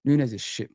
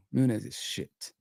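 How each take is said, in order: First: Said in the usual way. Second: "Nunes is shit" said softer and slow, like a resigned verdict; quiet, slow repeat. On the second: Real, not acted. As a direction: drop "Nunes is shit" into a soft, slow aside. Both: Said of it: "I'm sorry to say that".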